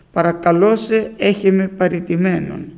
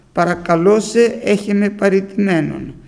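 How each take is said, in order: No difference in how they are said.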